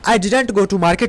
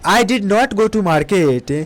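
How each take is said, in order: First: Did not is shortened into one word, didn't. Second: Did not is said as two full words.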